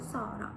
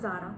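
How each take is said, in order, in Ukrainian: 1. Ім'я починається з глухого звуку s. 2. Ім'я починається з дзвінкого звуку z. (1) "Це буде «Сара»" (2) "що це не «з», як воно вимовляється у нашій мові"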